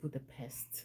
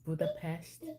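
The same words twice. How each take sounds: First: The last syllable sounds like the word 'pest'. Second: The last syllable does not sound like 'pest'. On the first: The speaker calls it wrong. "not Budapest, like the pest" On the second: The speaker calls it right. "I know it's pronounced Budapest"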